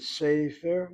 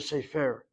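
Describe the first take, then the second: First: "Sefer" with the first syllable stressed and drawn out. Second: "sefer" with the weight on the second syllable; stress on last syllable. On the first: Teacher showing student the correct stress, first syllable of "Sefer" stressed. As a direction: hit the opening syllable of "Sefer". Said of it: "notice how I'm saying it". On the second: Teacher showing the mistaken stress, last syllable of "sefer" stressed. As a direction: push the stress onto the end of "sefer". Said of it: "instead of sefer". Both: Shown as a demonstration.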